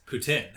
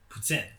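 First: Put-on "poutine" said the English way, poo-teen; English pronunciation. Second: "poutine" said the French way, like poo-tsin with a nasal end; French pronunciation. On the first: Explaining to her friend how English speakers say the dish, "poutine" as poo-teen. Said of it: "So in English". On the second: Explaining to her friend how the French say the dish, "poutine" as poo-tsin. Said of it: "Because in French". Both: Shown as a demonstration.

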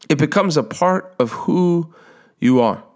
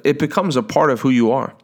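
First: "part" lifted high, slow, with a pause before "you are"; slow emphatic repeat. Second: Said in the usual way. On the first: Shown as a demonstration. Preacher driving home who you are, slow and emphatic.

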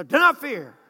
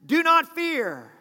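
First: "Do not fear" with a quicker falling "not"; a leader telling people plainly not to fear; leader's reassurance. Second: "not" in "Do not fear" stretched and stressed over a slow line; a leader slowly pressing "not" to calm the people; leader's reassurance. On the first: Leader repeating "not" more briskly to the people. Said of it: "They say". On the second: Leader slowly stressing "not" to calm the frightened people. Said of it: "here's what they say". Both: Retold or imitated.

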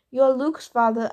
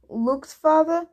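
First: Said in the usual way. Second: "Luke's father" lifted higher into a question; questioning echo. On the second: A narrator's reading. Hermes querying the boy's introduction, "Luke's father" as a question.

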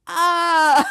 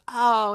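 First: Loud, drawn-out oh; mock the penny dropping, big and long; exaggerated realization. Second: A small, noncommittal oh; mild acknowledgement. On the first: Boss's second, dawning reaction retold. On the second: Retold or imitated. Boss's first, mild reaction retold.

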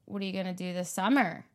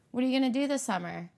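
First: Western Pennsylvania tune. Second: Fast Philly way of asking "What are you gonna do this summer?", pitch a bit up; Philly question tune. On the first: Philly speaker imitates how Western Pennsylvania asks, falling tune. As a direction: ask "What are you gonna do this summer?" the Western Pennsylvania way, dropping on "summer". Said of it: "inflection is different". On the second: Philly speaker demos her own home accent's question, quick. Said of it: "That's how we ask them". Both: Shown as a demonstration.

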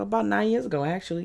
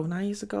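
First: Said in the usual way. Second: Quiet questioning rise on ago; unsure question. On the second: Real, not acted. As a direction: ask yourself, doubtful.

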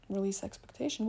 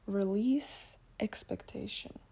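First: Said in the usual way. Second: Slow, measured inner-voice message; heard inner voice. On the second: Retold or imitated. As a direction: deliver it slowly like a spirit guide speaking. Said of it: "And then I heard".

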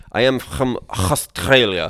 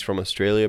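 First: Slow, loud, throaty mock Middle Eastern accent; hammed-up guttural Middle Eastern accent with kh sounds. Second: Said in the usual way. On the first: Imitating a man claiming to be Australian, thick mock Middle Eastern accent. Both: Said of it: "but he says it like".

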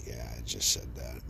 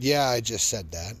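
First: Much lower and much softer, almost under the breath; very quietly. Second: Said in the usual way. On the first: Retold or imitated. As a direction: drop the voice right down as if letting it slip. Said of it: "I said it very quietly". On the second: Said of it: "if you didn't catch that".

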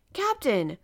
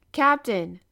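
First: A loud high call to get his attention; exclaiming. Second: A still louder call for attention; repeating louder. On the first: Professor calls to the absorbed captain, loud exclaiming. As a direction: call out sharply across the room. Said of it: "I exclaimed". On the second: Professor calls the captain a second time, louder. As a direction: call him again, much louder. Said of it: "I repeated, nudging him gently". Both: A narrator's reading.

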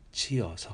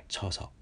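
First: チヨソ with チ and ヨ kept apart; separate syllables. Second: チョソ with チ and ヨ merged into チョ; fused syllables. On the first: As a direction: say チ then ヨ distinctly in チヨソ. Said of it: "一つに融合させて、". (チとヨを分けて「チヨソ」と発音) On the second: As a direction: run it together as チョソ. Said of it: "チョソというふうにしないようにしてください". (チとヨを融合させて「チョソ」と発音) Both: Shown as a demonstration.

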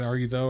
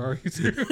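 First: "Are you though" with a voiced th. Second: "through" said with an unvoiced th and r; "Are you through?" ending in a rising "through"; "through" with th as in think. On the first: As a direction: say "though" softly, ending oh. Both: Shown as a demonstration. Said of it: "I didn't know if this is".

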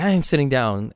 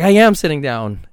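First: Said in the usual way. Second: Loud, indignant retort; retold protest, louder and higher; aggravated. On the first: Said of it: "I was like". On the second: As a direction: snap back loud, insisting you're sitting.

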